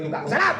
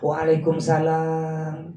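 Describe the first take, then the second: First: It is said curtly and harshly. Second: It is said softly and gently.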